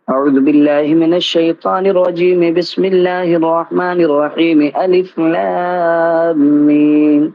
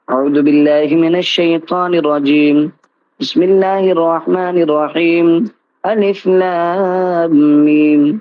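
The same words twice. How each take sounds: First: The three parts are run together without pauses. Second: The three parts are separated by pauses.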